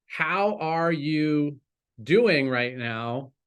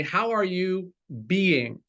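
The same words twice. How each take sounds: First: Slow question with weight on HOW; "how" drawn out and stressed, the rest slow. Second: "are" leaned on, falling tune, a bit slow; stress on ARE. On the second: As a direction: press the word "are" and let it fall. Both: Shown as a demonstration. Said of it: "And more importantly".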